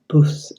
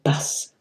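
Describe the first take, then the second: First: The vowel sounds Northern, like 'buss' with rounded u. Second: The vowel sounds Southern, open like 'bahs'. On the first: The speaker calls it wrong. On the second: The speaker calls it right.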